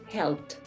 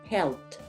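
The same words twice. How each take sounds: The two takes are said the same way.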